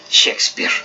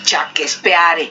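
First: The name is said with English sounds. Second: The name is read with Spanish sounds. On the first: This is the name's proper pronunciation. The speaker calls it right. "se dice Shakespeare" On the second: This is how locals name a street. The speaker calls it wrong. "Como algunos de nosotros aquí en México lo conocemos"

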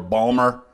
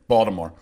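First: The name is squeezed into two syllables. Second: The name is said with three syllables. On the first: The speaker is from the Dundalk area. "if you're from, say, Dundalk, Maryland, you might say more Balmer" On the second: The speaker is from the Baltimore area. "the way that I pronounce it, it's B-A-W-D-I-M-O-R-E"

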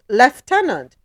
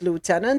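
First: It is said the British way, like 'leftenant'. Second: It is said the American way, like 'lootenant'.

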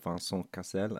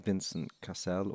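First: The name is said with French pronunciation. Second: The name is said with English pronunciation.

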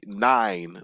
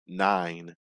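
First: It is said harshly, like yelling. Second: It is said in a calmer voice.

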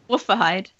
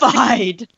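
First: It is said in her own normal voice. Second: It is said in an imitation of Runt.

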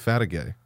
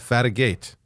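First: The name ends in an open 'ay' sound. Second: The name ends with a clear final t sound. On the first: This is how someone else says the name. "you still pronounce it with a Y at the end" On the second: This is how the owner of the name says it. "you know how to spell my name"

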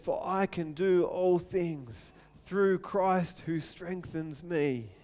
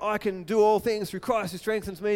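First: It is said calmly and sincerely. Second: It is said with forced, pumped-up excitement.

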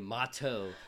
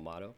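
First: The word is said slowly with clear consonants. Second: The word is said quickly and loosely. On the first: It cannot be mistaken for model. The speaker calls it right. "to really enunciate" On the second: The listener could mishear it as model. The speaker calls it wrong. "I said it real fast"

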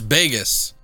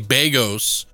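First: The name rhymes with Vegas. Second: The name does not rhyme with Vegas. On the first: The speaker calls it right. "But it's Bagos. So, like, Vegas" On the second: The speaker calls it wrong. "everybody wants to say Bagos"

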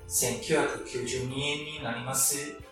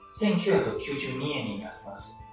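First: It is said with a Kyoto accent. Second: It is said in standard Japanese pitch.

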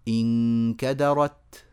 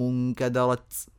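First: The final t is a crisp stop without hiss. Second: The final t has a hissing s-like release. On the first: The speaker calls it right. "هكذا، وليس تس" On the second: The speaker calls it wrong. "إيه ده تسيين؟ ... غلط"

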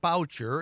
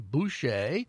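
First: The name is said with an English pronunciation. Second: The name is said with a French pronunciation. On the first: The speaker calls it wrong. "it's not Boucher" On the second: The speaker calls it right. "It's pronounced the French way"

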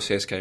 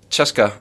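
First: The name is spelled out as separate letters. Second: The name is said as one word, Cheska. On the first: This is the anglicised way. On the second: This is the home-language way.

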